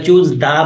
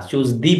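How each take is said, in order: First: "দা" with an open "ah" vowel; article read as da. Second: "দি" with a long "ee" vowel; article read as dee. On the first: Teacher gives students the answer, "দা" with an "ah". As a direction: read the article "দা" as "da", before a consonant. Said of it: "choose দা পড়বো আমরা". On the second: Teacher shows the reading not used here, "দি" with "ee". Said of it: "choose দি পড়বো না". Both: Shown as a demonstration.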